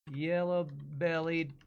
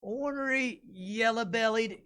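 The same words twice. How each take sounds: First: Said in the usual way. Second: Higher slow southern jeer; mock the coward in drawl; southern insult. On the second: Shown as a demonstration. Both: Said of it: "words for cowardly".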